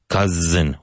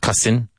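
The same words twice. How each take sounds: First: The middle consonant is a buzzing Z sound. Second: The middle consonant is a hissing S sound. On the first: The speaker calls it right. "With a strong Z sound" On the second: The speaker calls it wrong. "Not cousin"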